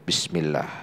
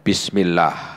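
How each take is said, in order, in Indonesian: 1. Kata itu diucapkan pelan, hampir berbisik. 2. Kata itu diucapkan lebih keras, terdengar jelas. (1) "Ini sir" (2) "Ini lebih keras"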